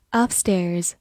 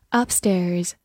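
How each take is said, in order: Both takes have the same delivery.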